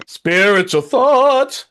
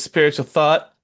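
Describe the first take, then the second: First: Very slow, high unearthly intoning; spirit voice. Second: Said in the usual way. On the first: Pretend. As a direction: moan it like a ghost. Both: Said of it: "Going to spirit voice there".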